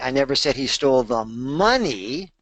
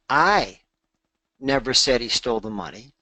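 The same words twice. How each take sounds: First: The word "money" carries the main stress. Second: The word "I" carries the main stress. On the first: He stole something else. "he stole something else" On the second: Someone else said it. "that would imply that I didn't say it. Maybe Marie said it or someone else said it"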